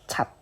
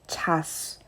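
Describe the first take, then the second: First: The final consonant is pronounced as a t sound. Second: The final consonant is pronounced as its written ch sound. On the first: The speaker calls it right. "It is same with D sound, so it goes like chat" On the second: The speaker calls it wrong. "it was supposed to be go like chas, but it is not chas"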